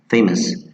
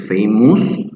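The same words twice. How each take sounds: First: The last syllable has a reduced schwa vowel. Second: The last syllable has a full u vowel. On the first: The speaker calls it right. "that's why I have here the schwa" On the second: The speaker calls it wrong. "many students say famous, it's not us"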